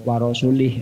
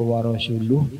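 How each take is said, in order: First: The word ends with an i vowel. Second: The word ends with a u vowel.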